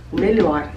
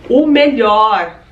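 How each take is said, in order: First: Said in the usual way. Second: O melhor drawn out slowly and pressed; savoring "O melhor", very slow and deliberate; slow emphatic repeat. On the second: Shown as a demonstration.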